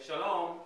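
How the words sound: It sounds like someone leaving, a farewell.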